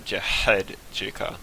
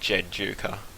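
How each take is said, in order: First: A throaty H sound is heard in the middle. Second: The H sound in the middle is left out. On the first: The speaker calls it wrong. "something gets stuck in your throat and it goes huh" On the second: The speaker calls it right. "like the H is silent"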